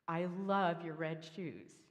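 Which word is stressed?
shoes. The stress is on the word shoes.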